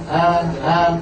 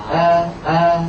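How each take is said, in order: The two takes are said the same way.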